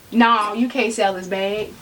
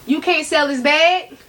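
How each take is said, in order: First: Lower, settled voice telling yourself no; firm self-talk. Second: Raised, more emphatic repeat to yourself; insistent self-talk. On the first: Talking herself out of selling. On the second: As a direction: press the point home, ending up. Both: Retold or imitated.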